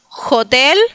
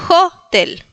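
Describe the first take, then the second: First: The stress is on the second syllable. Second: The stress is on the first syllable. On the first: The speaker calls it wrong. "no es hotel" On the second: The speaker calls it right. "acentuamos la primera sílaba"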